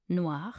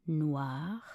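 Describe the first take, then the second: First: Said in the usual way. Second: Slow, lengthened single syllable; drawn out. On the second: Shown as a demonstration. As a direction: stretch the word for a learner. Pronunciation guide, drawn-out take.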